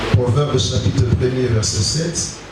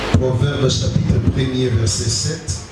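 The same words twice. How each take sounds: Both takes have the same delivery.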